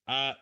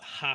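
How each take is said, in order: First: It starts directly with the vowel, no h. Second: It starts with a breathy h sound. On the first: The speaker calls it right. "H is mute, is silent" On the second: The speaker calls it wrong. "it's not ha"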